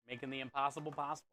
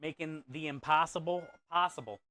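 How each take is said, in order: First: Faster, softer echo of the motto; quick quiet repeat. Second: "possible" stretched with a falling end; slogan delivery. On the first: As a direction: murmur the slogan again quickly. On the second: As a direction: say it like a proud motto. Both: Shown as a demonstration.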